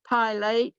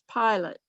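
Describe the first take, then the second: First: The second syllable has a long A sound. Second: The second syllable has a short, reduced vowel. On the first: The speaker calls it wrong. "the A would have been long" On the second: The speaker calls it right. "It's not, it's pilot"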